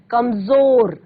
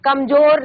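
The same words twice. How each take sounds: First: कमजोर with ज as z, kamzor; nukta z sound. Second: कमजोर with a hard j, kamjor; wrong j sound. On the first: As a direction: buzz the z in कमजोर. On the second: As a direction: say कमजोर with j in place of z. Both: Shown as a demonstration. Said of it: "कमजोर नहीं".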